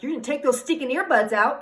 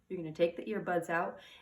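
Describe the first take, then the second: First: It is said in a harsh, angry tone. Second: It is said in a calm, gentle tone.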